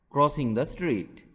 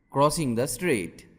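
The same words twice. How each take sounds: The two takes are said the same way.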